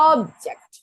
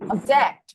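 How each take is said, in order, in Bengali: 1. Stress প্রথম সিলেবলে। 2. Stress দ্বিতীয় সিলেবলে। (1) "কিন্তু যখন প্রথমে দিয়েছিলাম অবজেক্ট" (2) "যখন কি করলাম আমরা শেষে ওয়ার্ড স্ট্রেস দিলাম"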